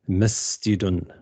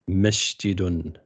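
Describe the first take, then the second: First: The consonant after 'ma' is an 's' sound. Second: The consonant after 'ma' is a 'sh' sound. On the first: The speaker calls it right. "with a sin" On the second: The speaker calls it wrong. "as with a sheen, like هذا masjidun, which is incorrect"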